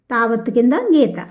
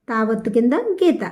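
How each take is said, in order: Both takes have the same delivery.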